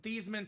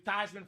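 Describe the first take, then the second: First: The name does not rhyme with Heisman. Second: The name rhymes with Heisman. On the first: This is the family's original pronunciation. "change your last name pronunciation from Thiesman" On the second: This is the new pronunciation made to fit a slogan. "to Theismann so we can do Theismann for the Heisman"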